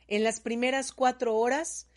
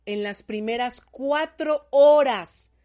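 First: Said in the usual way. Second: Slow, loud, with "horas" hit hard and falling; stress on horas. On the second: Shown as a demonstration. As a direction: lean on "horas", drawn out and emphatic. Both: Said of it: "otro ojote grande".

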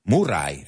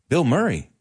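First: Murray said moo-RAI, Spanish vowels and tapped r; Murray as moo-RAI, the way Spanish speakers say it; Spanish-style Murray. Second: Said in the usual way. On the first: Shown as a demonstration. Teacher imitating how his students say the name. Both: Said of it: "as you say".

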